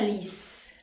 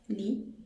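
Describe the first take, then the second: First: The final s sound is pronounced. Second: The final s sound is silent. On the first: The speaker calls it wrong. "não fica lis" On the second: The speaker calls it right. "Lis é li"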